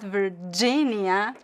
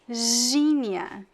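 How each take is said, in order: First: The G starts with a short stop. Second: The G is a continuous buzzing sound. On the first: The speaker calls it wrong. "It's not Virginia" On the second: The speaker calls it right. "because the G in Portuguese is pronounced as a continuous sound"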